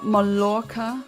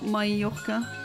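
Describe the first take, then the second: First: The double L is an L sound. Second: The double L is a Y sound. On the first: The speaker calls it wrong. "it's not Ma- Mallorca" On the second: The speaker calls it right. "but Mallorca"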